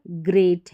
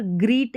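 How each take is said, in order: First: ग्रेट with an ay vowel, as in great; correct ay sound. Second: ग्रीट with a long ee vowel, as in greet; wrong long ee. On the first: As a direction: say ग्रेट with a clear ay. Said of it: "यहाँ पर ग्रेट है". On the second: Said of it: "यहाँ पर ग्रीट नहीं है". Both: Shown as a demonstration.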